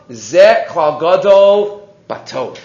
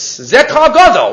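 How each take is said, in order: First: Said in the usual way. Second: Ze klal gadol said slowly, higher and weighted, leaning on gadol; stress on gadol. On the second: Shown as a demonstration. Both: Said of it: "That's the emphasis".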